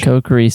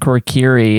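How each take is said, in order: First: The first syllable has no R sound. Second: The first syllable has an added R sound. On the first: The speaker calls it right. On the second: The speaker calls it wrong.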